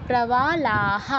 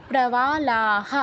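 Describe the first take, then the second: No difference in how they are said.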